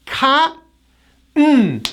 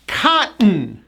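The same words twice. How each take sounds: First: "Cotton" split as KAH, pause, punched N; silent T. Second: "Cotton" joined up, KAH-'n with no T; silent T. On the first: Teacher says watch this, "Cotton" in two broken parts. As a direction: stop after a high "Cot", then punch a bare N. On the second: Teacher joins the parts, "Cotton" with silent T. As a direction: swallow the T in "Cotton", punch the N. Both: Shown as a demonstration. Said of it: "we do not pronounce the T".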